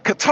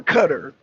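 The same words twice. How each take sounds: First: Qatar as kuh-TAR; Qatar with the stress on the second syllable, "tar"; first pronunciation. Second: Qatar as CUTTER; Qatar with stress up front, rhyming with butter; alternative pronunciation. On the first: Streamer asking which is correct, Qatar said kuh-TAR. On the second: Streamer asking which is correct, Qatar said CUTTER. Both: Shown as a demonstration. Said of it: "is it Qatar or Qatar?".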